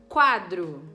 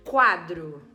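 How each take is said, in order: The two takes are said the same way.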